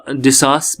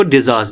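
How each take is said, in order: First: डिसास with a voiceless s in the middle; डिसास, the middle consonant a clean s; s sound. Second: डिजास with a voiced z in the middle; डिजास, the middle consonant buzzed as z; z sound. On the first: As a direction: say डिसास with s, not z. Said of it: "डिसास भी पढ़ सकते हो". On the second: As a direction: say डिजास with z, not s. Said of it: "डिजास भी पढ़". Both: Shown as a demonstration.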